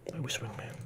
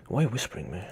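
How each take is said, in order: First: Hushed, voiceless whisper. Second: Said in the usual way. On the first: Pretend. Streamer asking why someone is whispering, whispered. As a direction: whisper it under your breath. Echoes the whispering being asked about.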